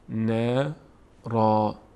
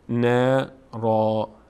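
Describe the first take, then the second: First: The word ends with a long a sound. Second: The same.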